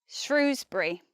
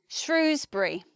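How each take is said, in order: The two takes are said the same way.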